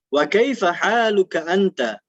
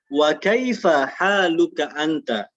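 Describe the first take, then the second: First: The phrase is said at a faster pace. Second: The phrase is said at a slower pace.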